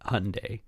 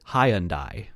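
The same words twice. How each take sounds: First: It is said the American way. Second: It is said the British way. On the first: "I'm given an American option" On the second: "apparently the British pronounce it"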